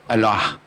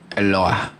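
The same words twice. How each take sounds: First: The word is said quickly and run together. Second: The word is said slowly and carefully.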